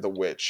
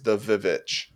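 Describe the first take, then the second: First: The word begins with a plain W sound. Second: The word begins with a doubled V sound. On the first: The speaker calls it wrong. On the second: The speaker calls it right.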